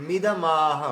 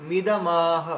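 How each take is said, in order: No difference in how they are said.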